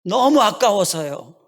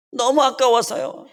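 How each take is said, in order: First: Put-on slow, tearful child voice, stress on 너무; a little child begging through tears, 너무 leaned on; slow tearful child, 너무 stretched out; crying child. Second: Higher, slow wail with 너무 drawn out; the child breaking down, voice climbing on 너무; higher, wailing child, 너무 stretched; sobbing child. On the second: Retold or imitated. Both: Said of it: "그러면서 우는 거예요".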